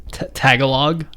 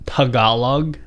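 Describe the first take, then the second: First: "Tagalog" anglicised, opening like "tag"; "Tagalog" as TAG-uh-log. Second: Said in the usual way. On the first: Shown as a demonstration. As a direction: say "Tagalog" with a flat English A, stressed up front.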